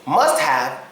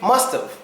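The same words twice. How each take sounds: First: The word have is pronounced in full. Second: The word have is reduced to av. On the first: "when we usually say" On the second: "we would say"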